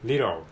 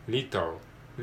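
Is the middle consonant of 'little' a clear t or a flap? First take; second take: flap; clear t. First: The middle consonant is a quick r-like flap. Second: The middle consonant is a clear t sound.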